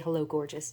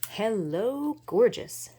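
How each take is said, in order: First: The phrase is said in a plain, flat way. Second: The phrase is said in a dramatic, drawn-out way. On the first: The speaker calls it wrong. "you can't just say Hello Gorgeous. It just doesn't sound right" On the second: The speaker calls it right. "You you have to say it like that"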